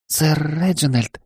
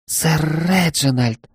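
First: Put-on shy young maid. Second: Slow, high breathless gasp of surprise; young maid, startled and flustered. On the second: Acted. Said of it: "Она ахнула".

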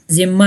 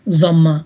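First: ضمہ said as "zimma", with a short i; mispronounced short vowel. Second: ضمہ said as "zamma", with a short a; corrected short vowel. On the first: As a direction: say ضمہ wrongly with an i after the z. (ضمہ کو زیر کے ساتھ "زِمّہ" کہنا) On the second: (ضمہ کو زبر کے ساتھ "ضَمّہ" کہنا) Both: Shown as a demonstration. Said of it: "ضمہ نہیں".

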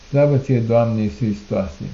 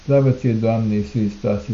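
The two takes are said the same way.

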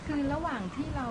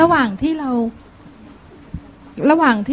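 First: Soft and distant, far from the mic; barely reaching the microphone, much softer; too faint. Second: Speaking up. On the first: Laywoman asking the monk a question, faint and far from the mic. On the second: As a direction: repeat it clearly so the room can hear. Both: Real, not acted. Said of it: "เอาไมค์ใกล้ๆหน่อย มันจะไม่ได้ยิน".

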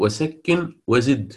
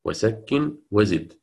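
First: وسكن وزد said slowly, each word stressed; teacher stressing the verse words; slow quoted verse. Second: Teacher repeating the verse; slow repeated verse. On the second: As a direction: echo وسكن وزد for the class. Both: Shown as a demonstration. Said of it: "لذلك هو قال".

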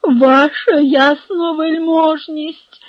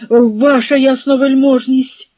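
First: High, slow, loud wail; drawn-out, anguished begging; groaning plea. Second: Louder, higher plea to a superior; raised, imploring address; pleading appeal. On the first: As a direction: moan it out in desperate appeal. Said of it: "простогнав Барабаш". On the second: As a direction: call out in urgent appeal. Officer pleads with the hetman. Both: A narrator's reading.

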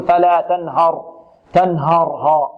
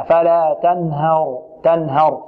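First: تنهر with a thick, dark "haw" on the ه; slow فلا تنهر, over-heavy ه. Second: Slow فلا تنهر with a thin, light ه; تنهر with a clean light "ha". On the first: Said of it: "البعض كذلك يفخم الهاء هنا". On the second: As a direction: lighten the ه of تنهر before the heavy ر. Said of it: "لا، نرققها". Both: Shown as a demonstration.

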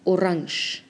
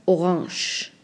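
First: Orange said the German way, oh-RAHNSH with a sh ending. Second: French-style orange. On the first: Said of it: "se dice orange". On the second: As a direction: say orange like a French word, nasal end. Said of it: "lo afrancesan mucho y pronuncian". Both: Shown as a demonstration.

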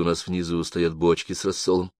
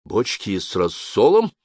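First: Said in the usual way. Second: Slow echo question, rising at the end; puzzled rising echo; surprised. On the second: A narrator's reading. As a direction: repeat it slowly in puzzled surprise. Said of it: "Он снова удивился".

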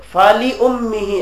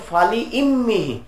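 First: ফালি উম্মিহি with u: উম্মিহি; reciting ফালি উম্মিহি, the u reading; one reading. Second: ফালি ইম্মিহি with i: ইম্মিহি; reciting ফালি ইম্মিহি, the i reading; other reading. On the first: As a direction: read উম্মিহি with an u after লি. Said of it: "এক কেরাত". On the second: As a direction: read ইম্মিহি with an i after লি. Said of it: "আরেক কেরাত হলো". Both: Shown as a demonstration.

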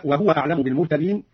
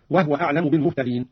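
First: Said in the usual way. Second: وهو said as wahwa with the ha unvowelled; silent ha. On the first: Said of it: "قرأ قالون بإسكان الهاء". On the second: Shown as a demonstration. Teacher demonstrates Qalun's silent ha in وهو. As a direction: close the ha of وهو, no vowel after it. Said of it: "هكذا".

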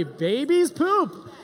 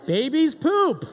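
First: Slower, odd-voiced "babies poop"; mock confiding "babies poop"; comic hushed. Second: Matter-of-fact emphatic "Babies poop"; slow emphatic. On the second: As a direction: lean hard on "poop" slowly. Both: Shown as a demonstration.

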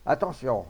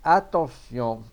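First: Brief, loud call to attention; firm heads-up, falling at the end; warning. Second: Slow, loud call to attention; suspenseful, long-held loud command; drawn-out warning. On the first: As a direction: warn the crowd quickly. Guard warns before aiming. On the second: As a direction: stretch the warning out before firing. Guard's final warning before firing. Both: A narrator's reading.

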